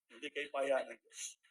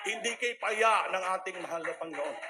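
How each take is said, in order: First: Hushed slow reaffirmation. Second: Louder ringing praise; fervent loud declaration; loud proclamation. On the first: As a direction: let it sink in slowly. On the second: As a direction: proclaim it to the room. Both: Real, not acted. Testimony climax, repeated.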